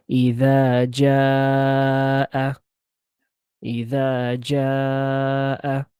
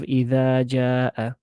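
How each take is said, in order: First: "إذا جاء" with the final vowel held long; extended vowel. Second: Said in the usual way. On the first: Shown as a demonstration. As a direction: stretch "جاء" to a count of four. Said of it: "we're gonna extend it". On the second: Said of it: "Instead of".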